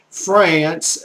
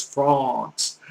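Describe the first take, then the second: First: Said in the usual way. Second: France said "Frahnce", with an open back vowel; French pronunciation. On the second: Shown as a demonstration. Tutor giving the French name of the country, France as "Frahnce". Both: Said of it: "in the French language is France".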